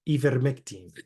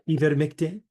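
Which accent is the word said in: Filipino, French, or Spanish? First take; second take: Spanish; French. First: It is said with a Spanish accent. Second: It is said with a French accent. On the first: "We could say like in Spanish" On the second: "We could do French"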